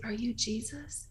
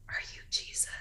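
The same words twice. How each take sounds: First: Slow whisper. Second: Soft whisper, no voice at all; whispered question. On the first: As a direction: repeat the whisper slower, rising at the end. Mother repeats question, daughter didn't hear. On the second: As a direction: whisper it like a secret to a child. Mother quietly asks daughter at bedside. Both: Retold or imitated.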